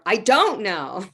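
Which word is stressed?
don't. The stress falls on the word don't. The listener wrongly believes the speaker knows. "You think I know, but I don't know"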